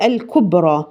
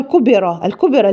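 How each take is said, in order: First: الكبرى slow, with a still ب; correct reading. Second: الكبرى with a vowel slipped after the ب; wrong vowel. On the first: Teacher modelling the correct recitation. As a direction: say الكبرى as kubra slowly. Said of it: "هي". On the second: Teacher imitating a mistake. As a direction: say الكبرى as kubera. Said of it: "ما ينفعش أقول". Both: Shown as a demonstration.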